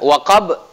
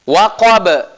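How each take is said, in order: First: The final consonant ends with little or no bounce. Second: The final consonant ends with a strong echoing bounce. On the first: The speaker calls it wrong. "salah kalau dibaca" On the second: The speaker calls it right. "dipantulkan menjadi qalqalah kubra"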